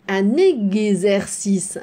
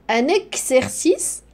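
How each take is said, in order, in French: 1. Le x se prononce gz. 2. Le x se prononce ks. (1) "la lettre X ici se prononce Gz. Pas X" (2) "Aïe! Non, c'est faux"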